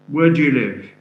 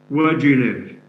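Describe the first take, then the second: First: The word do has a weak schwa vowel. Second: The word do has a weak schwa vowel.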